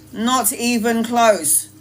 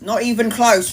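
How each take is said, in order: First: "Not even close" said slowly, each word weighed; slow emphatic repeat. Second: Said in the usual way. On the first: Shown as a demonstration. Repeating to viewers she was far from strong, slow emphasis. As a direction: drag it out for emphasis.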